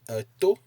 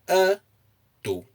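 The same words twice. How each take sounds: First: The pitch is high on the second syllable. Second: The pitch is high on the first syllable. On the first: It means an ear. "you place a high intonation on the O" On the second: It means he is muscular. "if you place the intonation on the a"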